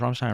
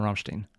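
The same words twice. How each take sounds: First: [name] said with the ending "stine". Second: [name] said with the ending "steen". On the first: Reactor unsure of the band's name, [name] ending in "stine". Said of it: "I can never tell if it's". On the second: Reactor offering the other band name reading, [name] ending in "steen". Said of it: "if it's [name] or [name]". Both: Shown as a demonstration.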